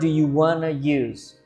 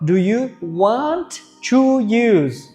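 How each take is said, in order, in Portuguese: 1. 'Want to' é falado junto, como 'wanna'. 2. 'Want to' é dito como duas palavras completas.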